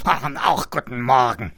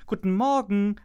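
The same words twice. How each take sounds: First: Loud grunting pig greeting; a pig grunting good morning; grunted. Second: High, loud morning greeting; a cheerful call to the pig. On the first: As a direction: grunt it back like a pig in the mud. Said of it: "grunzte das Schwein". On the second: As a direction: call it out brightly across the mud. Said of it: "rief Kiss Kiss". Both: A narrator's reading.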